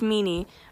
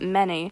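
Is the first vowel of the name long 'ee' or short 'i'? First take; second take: long ee; short i. First: The first vowel is a long 'ee' sound. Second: The first vowel is a short 'i' sound. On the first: This is the name's actual pronunciation. The speaker calls it right. "I know it's Meanie" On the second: The name is deliberately mispronounced out of dislike. The speaker calls it wrong. "I pronounce it Minnie because I fucking hate them"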